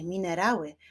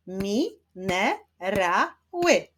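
First: Said in the usual way. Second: "Mi-ne-ra-ły" slow, four separate beats; syllable by syllable. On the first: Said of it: "wyklaszczmy sylaby w wyrazie". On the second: Shown as a demonstration. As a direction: clap out "Mi-ne-ra-ły" with a gap after each syllable. („Mi-ne-ra-ły” powoli, sylabami)

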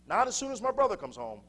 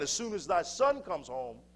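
First: "brother" lifted higher in contrast; stress on BROTHER. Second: "son" leaned on as the key word; stress on SON. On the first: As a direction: correct it pointedly, raising "brother". Corrects thy son to my brother. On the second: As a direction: put the weight on "son". Contrasts thy son with my brother. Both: Acted.

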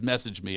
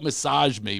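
First: Said in the usual way. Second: "massage" with second syllable stressed, ending in zh; pronounced as massage. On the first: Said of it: "it turned out it was". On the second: Shown as a demonstration. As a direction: say "massage" as muh-SAHZH. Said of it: "she wrote".

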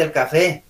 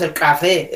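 First: Said in the usual way. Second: "café" con K exagerada; K marcada. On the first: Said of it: "Existe el café". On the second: Shown as a demonstration. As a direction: haz estallar la K de "café". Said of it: "no existe". ("café" con ka fuerte, forzada)

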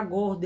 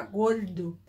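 First: Said in the usual way. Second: Paulista "gordo" with a curled-back R; São Paulo pronunciation, R pulled in "gordo"; Paulista accent. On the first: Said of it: "ele não fala gordo". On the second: Shown as a demonstration. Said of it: "ele fala gordo".

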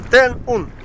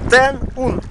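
Both takes have the same delivery.

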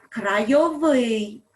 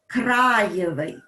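First: Крайовий loud and slow, final -ВИЙ stressed; stress on the ending. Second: Краєвий loud, first syllable КРА stressed; stress on the stem. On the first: Teacher contrasting stress for pupils, крайовий stressed at the end. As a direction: draw it out to the last syllable, крайо-ВИЙ. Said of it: "наголос падає на закінчення". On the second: Teacher contrasting stress for pupils, Краєвий stressed on first А. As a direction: lean hard on КРА in Краєвий. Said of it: "наголос падає на основу". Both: Shown as a demonstration.

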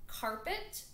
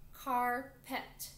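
First: Said in the usual way. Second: "carpet" in two separate beats; split into syllables. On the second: Shown as a demonstration. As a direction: break "carpet" into car, pause, pet. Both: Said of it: "count the syllables with me".

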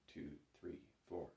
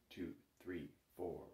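No difference in how they are said.

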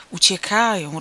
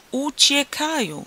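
First: Loud announcement at normal pitch; raised voice. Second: UCIEKAJĄ stretched slowly on a high pitch; emphatic repeat. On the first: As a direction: state the news firmly and loudly. Excited neighbour relays news, first take. (głośno, zwykłą wysokością głosu) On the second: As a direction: draw out "Uciekają" high to hammer it home. Repeats it after asking "understand?. („Uciekają” wysoko, powoli, z naciskiem) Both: A narrator's reading.

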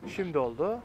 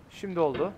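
Both takes have the same delivery.

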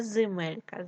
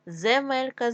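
First: Земелька said as зимелька; short i after З in земелька; и in first syllable. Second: Said in the usual way. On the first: Shown as a demonstration. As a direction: make земелька start with зи. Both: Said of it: "нам потрібно вставити або".

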